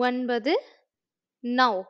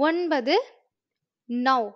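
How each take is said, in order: Both takes have the same delivery.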